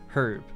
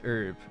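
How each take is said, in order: First: The word starts with an h sound. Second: The word starts without an h sound. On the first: This is the British and Irish way of saying it. "We pronounce the letter that's in the front of the word" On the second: This is the American way of saying it. "the American version is herb"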